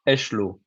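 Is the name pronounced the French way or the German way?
French. The name is pronounced the French way. "in French, I would say"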